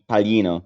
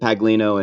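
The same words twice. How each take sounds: First: The middle sound is a soft y-like sound. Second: The middle sound is a hard g and l. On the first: This is the Italian way of saying the name. "it's pronounced ye ... you have to curl the tongue" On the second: This is how people in the US say the name. "growing up in the U S, everybody pronounced it Paglino"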